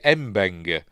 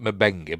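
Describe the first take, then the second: First: The m runs straight into the b. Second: A short vowel is heard between m and b. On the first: This is how the man himself says the name. "Mabenga pronounces it Mbenga" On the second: This is how another character says the name. "Scotty pronounces it Mabenga"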